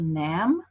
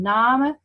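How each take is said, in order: First: The vowel has shifted partway toward modern 'name'. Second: The vowel is the older one, unlike modern 'name'. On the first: This is the later pronunciation. "we're going to nam" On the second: This is the earlier pronunciation. "From nam"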